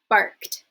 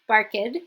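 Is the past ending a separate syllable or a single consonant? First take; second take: consonant; syllable. First: The ending is a single voiceless 't' sound. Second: The ending is an extra syllable, like 'id'. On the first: The speaker calls it right. "I will say barked" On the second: The speaker calls it wrong. "not barked"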